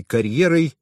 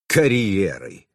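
First: Said in the usual way. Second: Slow, drawn-out scoff on КАРЬЕРОЙ; scornful snort. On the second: A narrator's reading. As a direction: throw КАРЬЕРОЙ back with contempt. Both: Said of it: "фыркнул Харитонов".

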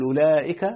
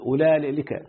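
First: Said in the usual way. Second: أولئك slowed, with an extra L as "ulaalika"; wrong lam form. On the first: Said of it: "تقول أولئك". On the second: Shown as a demonstration. Teacher contrasting forbidden form with correct one, slow "ulaalika". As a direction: put a lam where the hamza of أولئك belongs. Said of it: "لا تقل أولئك".

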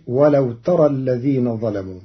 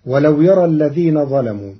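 First: ترى begun with the tā sound; tā of address. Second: يرى begun with the yā sound; yā reading. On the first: Teacher demonstrates Qalun's reading, ترى with tā. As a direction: start "ترى" with a clear tā, addressing the listener. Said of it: "فتصير". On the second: Teacher recites the usual reading, يرى with yā. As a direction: start "يرى" with a clear yā. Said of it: "قرأ قالون كلمة". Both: Shown as a demonstration.

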